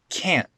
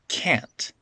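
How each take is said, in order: First: The final T is cut off in the throat. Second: The final T is fully released. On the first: "that T gets turned into a glottal stop" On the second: "that's the normal pronunciation"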